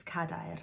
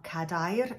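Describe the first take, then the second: First: "cadair" stressed on "ca", dropping softer after it; "cadair" with a light, unstressed "dair"; stress on first syllable. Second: "cadair" wrongly stressed on its final syllable, "dair"; stress on last syllable. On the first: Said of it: "it's cadair". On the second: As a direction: push the weight onto "dair" in "cadair". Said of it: "It's not cadair". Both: Shown as a demonstration.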